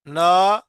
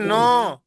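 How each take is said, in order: First: The vowel is open like 'na', mouth wide open. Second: The vowel is rounded like 'no', with nasal sound. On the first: The speaker calls it right. "जब ना करना है तो मुंह खोल देना है" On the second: The speaker calls it wrong. "एक है नो, ये गलत है।"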